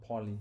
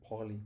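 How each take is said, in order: Both takes have the same delivery.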